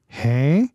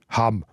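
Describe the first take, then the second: First: It is said in the Innerrhodisch dialect, vowel nasalized. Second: It is said in the Vorderland dialect, ending in m.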